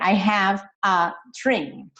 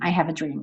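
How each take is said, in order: First: Each word is said separately, without linking. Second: The words run together, v linking into a. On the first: The speaker calls it wrong. "You don't say" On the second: The speaker calls it right. "see how these words are connected"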